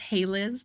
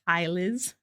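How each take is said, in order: First: The first syllable rhymes with 'day'. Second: The first syllable rhymes with 'my'. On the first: The speaker calls it right. "Mine is pronounced Hey Liz" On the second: The speaker calls it wrong. "but I always get Hi Liz"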